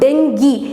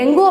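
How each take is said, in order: First: The word ends in an ee sound. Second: The word ends in an oo sound. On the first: The speaker calls it right. "அதோட actual pronunciation" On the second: The speaker calls it wrong. "டெங்குன்றது சொல்லக்கூடாது"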